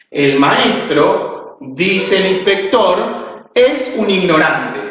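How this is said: Pauses come after 'maestro' and after 'inspector'. The teacher is the ignorant one. "lo coloco después de la palabra maestro y después de la palabra inspector"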